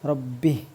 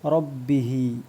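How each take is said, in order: First: The word ends on a consonant, vowel dropped. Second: The word ends with a final vowel sound. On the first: The reading stops at this word. "ഇവിടെ നിർത്തുമ്പോൾ റബ്ബിഹ് എന്ന് നിർത്തിയാൽ മതി" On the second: The reading continues past this word. "മുമ്പ് പറഞ്ഞിട്ടുണ്ട് അംരി റബ്ബിഹി"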